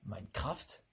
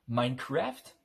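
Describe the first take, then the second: First: It is said with a French pronunciation. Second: It is said with an English-style pronunciation.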